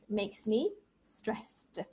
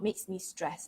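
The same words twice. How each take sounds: First: The word ends with an audible ed sound. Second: The word ends without any ed sound. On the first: The speaker calls it right. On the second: The speaker calls it wrong.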